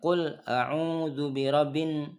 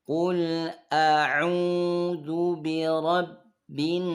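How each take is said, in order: First: The doubled consonants are said lightly, not pressed. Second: The doubled consonants are pressed and held long. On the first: The speaker calls it wrong. "berarti banyak tidak ditekan ini" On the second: The speaker calls it right. "Tahan sini, jangan buru-buru, tahan dulu tiga ketukan"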